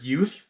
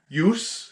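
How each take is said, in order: First: The word ends with a 'th' sound. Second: The word ends with an 's' sound. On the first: The speaker calls it right. "I did not like the way he pronounced the word youth" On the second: The speaker calls it wrong. "I did not like the way he pronounced"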